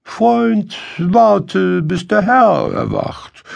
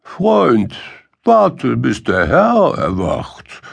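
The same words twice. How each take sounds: First: High, measured donkey voice, louder on "warte"; pitched-up donkey, speaking with deliberation; deliberate donkey. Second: Lightly voiced dog, high start dropping to usual pitch; high "Freund, warte", then settle down; unmoved dog. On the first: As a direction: put the hungry friend off in a high, deliberate voice. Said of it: "schließlich sprach er mit Bedacht". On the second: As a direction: echo the donkey's advice back, unmoved. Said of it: "Der Hund bleibt regungslos und sagt". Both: A narrator's reading.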